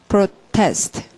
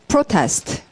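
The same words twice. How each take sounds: First: The stress is on the second syllable. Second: The stress is on the first syllable. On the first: It is used as a verb. "동사일 때는 뭐라고 읽고" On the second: It is used as a noun. "명사일 때는"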